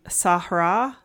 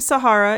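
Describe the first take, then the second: First: It is pronounced in an attempted Arabic way. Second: It is pronounced in the usual English way.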